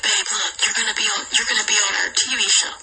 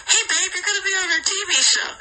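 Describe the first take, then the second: First: Said in the usual way. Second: Higher, brighter call to babe; higher eager hey babe; excited call. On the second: Retold or imitated. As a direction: sell it with excitement. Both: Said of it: "He's like".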